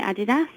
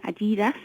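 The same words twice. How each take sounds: First: Adidas with first-syllable stress, AD-i-das; Adidas with short vowels; speaker's usual pronunciation. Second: Adidas with middle stress, a-DEE-das; Adidas with a long middle "ee"; alternative pronunciation. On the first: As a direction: keep Adidas the British way, AD-i-das. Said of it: "I still call it Adidas". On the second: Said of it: "some people call it Adidas now". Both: Shown as a demonstration.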